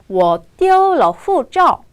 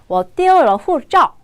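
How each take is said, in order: First: It is said at a normal pace. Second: It is said more quickly.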